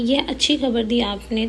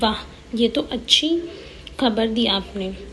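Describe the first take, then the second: First: It sounds without happy surprise. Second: It sounds happily surprised.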